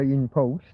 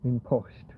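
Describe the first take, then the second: First: The name is said with an English pronunciation. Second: The name is said with a European O vowel. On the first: "in English you would say InPost" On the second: "Most of the places in Europe would go with an O"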